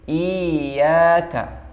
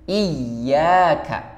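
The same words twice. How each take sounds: First: The first i vowel is stretched long. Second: The y sound is held long. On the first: The speaker calls it wrong. "itu memanjangkan i-nya" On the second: The speaker calls it right. "itu yang tepat"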